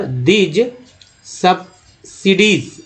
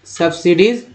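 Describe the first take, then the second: First: "subsidies" split into sub... sidies, drawn out; slow syllable-by-syllable. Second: Said in the usual way. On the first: Shown as a demonstration. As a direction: sound out "subsidies" slowly in parts. ("Subsidies" को तोड़कर धीरे पढ़ें) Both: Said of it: "इसको धीरे धीरे पढ़ते हैं".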